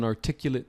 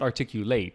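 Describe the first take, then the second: First: It is pronounced as the adjective form. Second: It is pronounced as the verb form. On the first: It describes the speech as clear and well expressed. The speaker calls it right. "it was an articulate speech" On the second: It names the action of expressing something clearly. The speaker calls it wrong. "not articulate. That's the verb"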